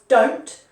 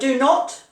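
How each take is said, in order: First: It is said as one short contracted word. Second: It is said as two full separate words. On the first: "becomes don't" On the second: "do not becomes don't"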